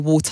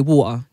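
First: The middle T is pronounced clearly. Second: The middle T is dropped. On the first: "I don't say water" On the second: "you drop your T"

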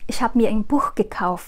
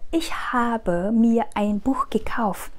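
First: The final e of the verb is dropped. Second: The final e of the verb is pronounced. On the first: This is casual, fluent spoken style. "người ta sẽ nuốt cái e đi và người ta sẽ chỉ nói là ich hab" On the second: This is careful, fully spelled-out style. "nếu mà các bạn nói rõ hết ra"

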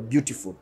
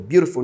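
First: It is said with a British accent. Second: It is said with an American accent. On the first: "Icyongereza cyabongereza tuvuga beautiful" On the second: "Beautiful ni Kinyamerika"

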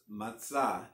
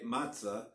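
First: The stress is on the last syllable. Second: The stress is on the first syllable. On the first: This is the Hebrew way of saying it. "the proper Hebrew pronunciation, again, accent being on the last syllable" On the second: This is the English way of saying it. "it's English, we say matzah"

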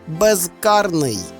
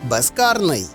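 First: Said slowly, with a voiced z in the prefix. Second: Said quickly, with the prefix consonant devoiced. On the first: "Під час повільного, роздільного мовлення ... маємо вимовляти дзвінко" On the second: "у швидкому темпі допускається оглушення кінцевого приголосного"

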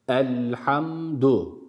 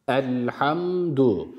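Both takes have the same delivery.

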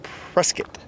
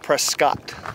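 First: The last syllable sounds like 'kit'. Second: The last syllable sounds like 'cot'. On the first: The speaker calls it right. "But we are in Prescott" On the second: The speaker calls it wrong. "Not Prescott"

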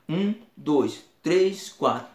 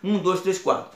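First: The numbers are counted slowly. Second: The numbers are counted quickly. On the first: "Se for lento" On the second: "Se for rápido"

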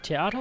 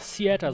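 First: The word is pronounced the German way. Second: The word is pronounced the English way.

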